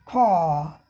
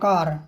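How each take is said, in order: First: The vowel is long and the r is dropped. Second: The r sound at the end is pronounced. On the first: "British में खा खा, स्वर ही लंबा हो गया, आर का उच्चारण नहीं हुआ" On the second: "अब यहाँ सीधा आ गया अमेरिकन"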